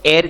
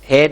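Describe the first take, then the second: First: The word begins directly with a vowel sound. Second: The word begins with an audible h sound. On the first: The speaker calls it right. "इसको एयर कहते हैं" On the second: The speaker calls it wrong. "हेयर नहीं कहते"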